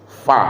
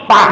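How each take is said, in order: First: It starts with an f sound, teeth on lip. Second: It starts with a p sound, both lips closed. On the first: The speaker calls it right. "maka bunyinya fa" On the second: The speaker calls it wrong. "ketemulah bibir di atas dengan bibir di bawah Pak. Apa bunyinya?"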